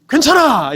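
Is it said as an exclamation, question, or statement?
exclamation. It is said loudly like an exclamation.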